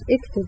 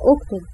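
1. الكلمة تبدأ بحركة غير "u". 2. الكلمة تبدأ بحركة "u". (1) "ما هيش اكتب" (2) "هي هتبقى أكتب"

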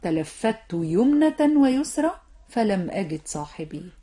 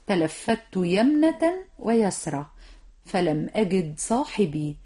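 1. كلتا الكلمتين تبدآن بصوت 'yu'. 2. كلتا الكلمتين تبدآن بصوت 'ya'. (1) "ولا تقل" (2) "إذن قل"

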